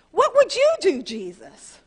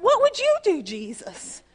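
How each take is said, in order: First: High, loud desperate blurt then dropping on Jesus; high anguished shout to God; blurted cry. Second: High, loud pleading cry with a sudden drop on Jesus; repeated high shout of desperation; blurted cry. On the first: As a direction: cry out the question before you can stop it. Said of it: "I didn't even mean to say that". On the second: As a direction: burst out with the plea again. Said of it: "I just went". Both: Retold or imitated.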